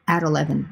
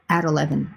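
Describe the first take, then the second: First: The t is a quick d-like flap. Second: The same.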